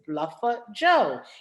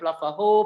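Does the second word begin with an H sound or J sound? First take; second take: J sound; H sound. First: The second word begins with a J sound. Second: The second word begins with an H sound. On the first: The speaker calls it right. "it literally is Bluffer Joe" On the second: The speaker calls it wrong. "People want to call it Bluffer Ho"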